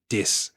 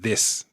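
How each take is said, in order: First: The word begins with a d sound. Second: The word begins with a th sound. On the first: "T H's at the beginning of words tend to become D's" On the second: "instead of this"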